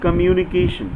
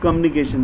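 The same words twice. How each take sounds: First: The word is said slowly with every syllable. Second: The word is said quickly and clipped. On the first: The speaker calls it right. "this is communication" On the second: The speaker calls it wrong. "when they are in flow, they simply pronounce communication, but it is not communication"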